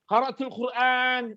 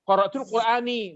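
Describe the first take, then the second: First: The final word ends without a vowel. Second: The final word ends with an added vowel. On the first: The case ending is hidden. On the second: The case ending is shown. "Kalau dia dilengkapi harokatnya"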